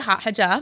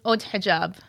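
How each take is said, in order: First: Haute sounds like the English word hot. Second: Haute is given its French pronunciation. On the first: This is the everyday way the speaker says it. "I say hot hijab" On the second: This is the original form of the name. "But it's haute hijab. It's French"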